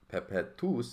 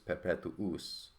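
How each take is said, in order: First: The u before the ending is dropped. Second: The u before the ending is kept. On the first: The speaker calls it wrong. "it's not perpetuus" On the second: The speaker calls it right. "it maintains a double U"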